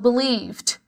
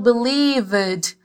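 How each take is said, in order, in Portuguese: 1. A terminação é só um estalo curto no final. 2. A terminação é falada como uma sílaba extra completa. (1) "eu falo believed, believed. É um som mais de estalo" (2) "Eu não falo believed"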